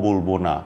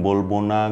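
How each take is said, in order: The two takes are said the same way.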